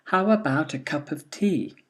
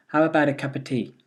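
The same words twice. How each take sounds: First: Said in the usual way. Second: "of" reduced to a schwa, said quickly; weak form, faster. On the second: Shown as a demonstration. Teacher giving the weak-form answer quickly. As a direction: rattle off "cup of tea" with a weak "of". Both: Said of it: "here are the answers".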